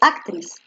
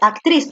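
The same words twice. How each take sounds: First: The stress is on the first syllable. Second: The stress is on the last syllable. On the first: The speaker calls it wrong. "tú no dices actriz" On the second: The speaker calls it right. "Actriz es aguda, porque tú dices actriz"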